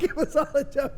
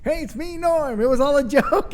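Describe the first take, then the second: First: High voice breaking into laughter; giggling repeat of the punchline; laughing through it. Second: High, loud comic reveal; high impression of the comic, loud on the joke; Norm Macdonald. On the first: Retold or imitated. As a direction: laugh while repeating the line. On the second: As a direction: pitch it up high and announce the prank. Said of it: "that's really good Norm Macdonald impersonation".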